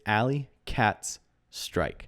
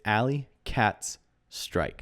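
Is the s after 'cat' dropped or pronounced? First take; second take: pronounced; pronounced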